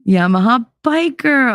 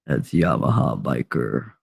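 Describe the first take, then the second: First: High, delighted call-out of a name; excited greeting. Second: Very low, soft croon from the deep; velveteen deep voice. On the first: Real, not acted. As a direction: greet a favourite viewer arriving. Greets a viewer on spotting them. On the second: Retold or imitated. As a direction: imitate a man's velvety bass, much lower and softer. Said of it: "the velveteen voice from the deep".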